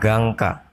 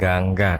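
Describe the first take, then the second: First: The second consonant is a tense doubled k. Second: The second consonant is a plain g sound. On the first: The speaker calls it right. "Dibaca gangka" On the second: The speaker calls it wrong. "bukan gangga"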